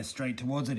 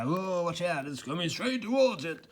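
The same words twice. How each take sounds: First: Said in the usual way. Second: High, hammed-up warning cry; mock alarmed newsreader. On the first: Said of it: "another soundbite". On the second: Mocking the news report, hammed-up alarm. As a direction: ham up the danger like a TV presenter. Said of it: "implying, like, it's coming at you".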